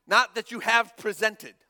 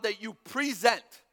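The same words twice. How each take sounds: First: "not" punched louder before "presented"; stress on NOT. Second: "present" drawn out, slow and weighted; stress on present. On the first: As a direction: hit "not" hard against "presented". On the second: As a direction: lean on "present" as ongoing. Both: Shown as a demonstration.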